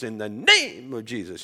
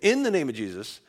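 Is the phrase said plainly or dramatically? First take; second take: dramatically; plainly. First: It is said in a flamboyant, dramatic way. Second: It is said in a plain, ordinary way.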